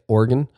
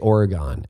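First: It is said the way locals pronounce it. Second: It is said the way outsiders pronounce it. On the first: The speaker calls it right. "I'm going to try to say it" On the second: The speaker calls it wrong. "we say Oregon"

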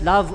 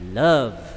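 First: The word is said plainly, without extra force. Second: The word is said with strong, forceful emphasis. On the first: The speaker calls it wrong. "not just love ordinarily" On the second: The speaker calls it right. "give emphasis on the word love"

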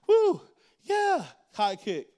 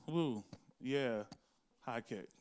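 First: It is said with excited, energetic enthusiasm. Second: It is said flatly, without any enthusiasm.

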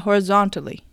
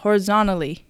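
First: The t after the n is pronounced. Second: The t after the n is dropped.

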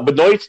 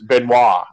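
First: The name is pronounced with an American sound. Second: The name is pronounced with a French sound. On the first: The speaker calls it wrong. "the American way of pronouncing it" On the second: The speaker calls it right. "It's French"

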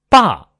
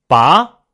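First: The pitch falls sharply from high to low. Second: The pitch rises from mid to high. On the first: "高起直降" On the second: "扬"

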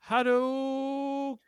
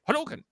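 First: The word is broken into separate syllables. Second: The word is said smoothly in one go. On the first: The speaker calls it wrong. "hearing it broken down for the first time" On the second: The speaker calls it right. "You have to say Hadouken. Just cool"

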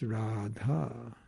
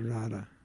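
First: The vowels in the name are long. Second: The vowels in the name are short. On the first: The speaker calls it right. "every syllable is long" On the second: The speaker calls it wrong. "it's not Radha"

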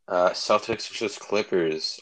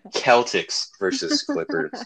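First: The team names are pronounced in the usual way. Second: The team names are pronounced in a distorted way. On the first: The speaker calls it right. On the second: The speaker calls it wrong.

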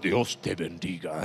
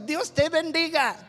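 First: It is said in a lowered voice. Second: It is said in a normal voice.

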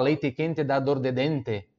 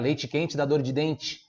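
First: It is said in a Paraná accent. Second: It is said in a southern Santa Catarina accent.

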